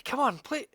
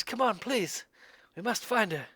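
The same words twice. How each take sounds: First: High urgent plea thrown back; the stranger begs the party to follow, higher; pleading call. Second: Higher urgent plea over the shoulder; the stranger begs the party to hurry after him; pleading call. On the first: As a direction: call them on, begging. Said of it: "turns to look back and say". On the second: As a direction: call back to them, begging. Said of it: "he looks back and he says". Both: Acted.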